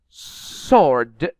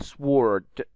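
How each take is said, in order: First: The W is not pronounced. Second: The W is pronounced aloud. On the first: The speaker calls it right. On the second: The speaker calls it wrong.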